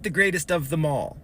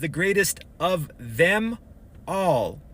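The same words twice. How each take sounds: First: The m runs into 'all', sounding like 'mall'. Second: The words 'them' and 'all' are kept separate. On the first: It means the best thing at the shopping mall. The speaker calls it wrong. "you're jumbling words" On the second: It means the best of all of them. The speaker calls it right. "Separate words"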